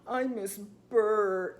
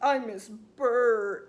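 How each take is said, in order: First: Slow, drawn-out sulky whine; lightly voiced pouting boy; mock pouting man. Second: Very slow, drawn-out sulky whine; lightly voiced pouting child; mock pouting five-year-old. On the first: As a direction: imitate a sulking grown man, slowly. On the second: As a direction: sulk it like a little boy, slowly. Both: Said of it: "like, pouting".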